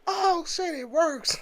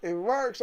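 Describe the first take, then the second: First: High, surprised "oh shit, it works"; thrilled the console finally boots; excited disbelief. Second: Said in the usual way. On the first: Retold or imitated. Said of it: "I was like".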